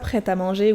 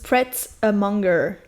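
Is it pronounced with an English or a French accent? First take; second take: French; English. First: It is pronounced the French way. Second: It is pronounced the English way. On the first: "ils disent pas" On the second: "en anglais, du coup, ... ils disent"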